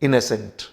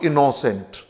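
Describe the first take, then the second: First: The middle vowel sounds like an a. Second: The middle vowel sounds like a full o. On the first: The speaker calls it right. "this o is pronounced as a" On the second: The speaker calls it wrong. "not innocent"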